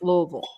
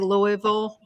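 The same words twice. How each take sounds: First: It is pronounced the way local residents say it. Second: It is pronounced the way outsiders usually say it. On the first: The speaker calls it right. "but it's Louisville" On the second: The speaker calls it wrong. "most people will say Louisville"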